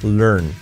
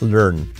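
The two takes are said the same way.

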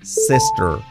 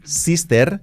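First: The r has the tongue pulled back. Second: The r is a Spanish-style r. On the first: The speaker calls it right. "pronunciación correcta" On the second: The speaker calls it wrong. "mal pronunciado"

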